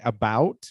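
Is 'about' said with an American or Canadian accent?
American. It is said with an American accent. "but we in American English we say about"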